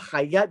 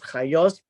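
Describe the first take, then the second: First: The word is said in non-Ashkenazi pronunciation. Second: The word is said in Ashkenazi pronunciation. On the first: "I prefer chayat because it's it's a more literal uh, reading"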